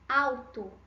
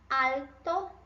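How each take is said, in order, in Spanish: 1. La L se pronuncia como un sonido de U. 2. La L se pronuncia como una L clara. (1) "O som desse L em português tem o som do U" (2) "Mira el sonido de la L"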